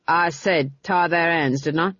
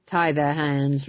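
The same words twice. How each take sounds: First: A touch of irritated command; snapped order. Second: Said in the usual way. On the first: A narrator's reading. Captain snapping at his men to obey, irritated command. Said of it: "he snapped".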